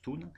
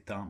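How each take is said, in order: First: The vowel sounds like 'oon'. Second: The vowel sounds like the French nasal 'ain'. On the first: This is how the name is really said. The speaker calls it right. "mais ça se prononce Thun" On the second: This is how the speaker used to say it. The speaker calls it wrong. "Je prononçais Tain"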